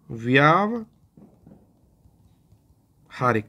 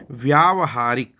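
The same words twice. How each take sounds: First: व्यावहारिक stretched out over several seconds, every syllable drawn; very slow spelling demo. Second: व्यावहारिक said clearly at a slower pace; slow answer demo. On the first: Teacher showing students each syllable, drawn out very slowly. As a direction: write it on the board as you stretch व्यावहारिक out. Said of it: "ये देखिए". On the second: Teacher answering his own question, measured. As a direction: give व्यावहारिक as the careful answer. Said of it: "क्या होता है?". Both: Shown as a demonstration.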